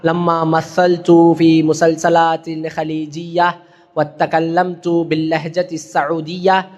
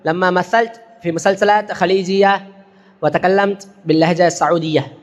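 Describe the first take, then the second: First: Every word-final case vowel is clearly pronounced. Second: The word-final case vowels are dropped at stops. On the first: The speaker calls it wrong. "அப்படிலாம் படிச்சுட்டு இருக்கக்கூடாது" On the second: The speaker calls it right. "எப்படிங்களா?"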